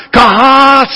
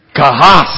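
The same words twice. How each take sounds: First: Kahas called out higher, mock angry; hammed-up angry Khan cry of kahas. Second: Kahas said together, rising at the end; group repeat. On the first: Pastor imitating an angry Star Trek villain, mock furious cry. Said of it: "He says". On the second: Shown as a demonstration. Pastor leads the crowd in saying the word, rising. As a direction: say Kahas after the count of three. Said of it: "You want to say that one".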